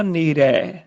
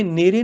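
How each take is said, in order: First: "ਨੇਰੇ" ending in a drawn-out open ai; final open ai. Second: "ਨੇਰੇ" ending in a close e; final e. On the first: Teacher corrects it, "ਨੇਰੇ" with final ai. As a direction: say "ਨੇਰੇ" as ne-rai. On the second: Teacher shows what to avoid, "ਨੇਰੇ" with final e. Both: Shown as a demonstration. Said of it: "ਨੇਰੇ ਨਹੀਂ ਬੋਲਣਾ".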